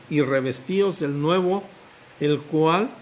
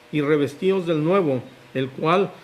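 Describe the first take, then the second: Both takes have the same delivery.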